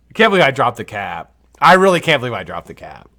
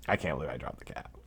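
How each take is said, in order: First: Louder, still can't believe it; loud embarrassed outburst; exasperated exclaim. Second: Much softer, lower mutter; quiet embarrassed mutter; muttered to self. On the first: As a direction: blurt out the disbelief. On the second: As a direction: say it under your breath to yourself. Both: Real, not acted. Repeats line, then mutters it.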